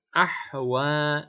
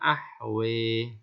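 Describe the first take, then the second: First: The final vowel is an open a. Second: The final vowel is tilted to e.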